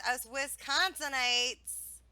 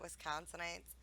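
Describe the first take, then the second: First: "Wisconsinites" said slowly in a local Wisconsin way; Wisconsin pronunciation. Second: Said in the usual way. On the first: Real, not acted. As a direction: drag out "Wisconsinites" with a Wisconsin accent. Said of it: "how I said that?". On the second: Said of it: "Did you hear us".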